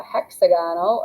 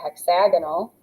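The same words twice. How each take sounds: First: Hexagonal said like hexagon plus -al, HEX-uh-GON-al; unshifted stress. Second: Hexagonal stressed on the second syllable, hex-AG-uh-nul; shifted stress. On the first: Teacher offering one of two namings, hexagonal as HEX-uh-GON-al. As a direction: keep a full GON in hexagonal. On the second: Teacher offering the other naming, hexagonal stressed hex-AG-uh-nul. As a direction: punch AG in hexagonal, short ending. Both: Shown as a demonstration. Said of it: "something weird happens with the stress".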